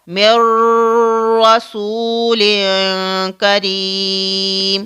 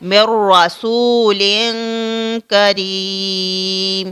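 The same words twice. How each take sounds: First: The opening sound is stretched out long. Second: The opening sound is kept short and straight. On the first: The speaker calls it wrong. "अगर हम इसको खींचेंगे तो ये कैसे पढ़ा जाएगा?" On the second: The speaker calls it right. "हमें सीधा ऐसे पढ़ना है"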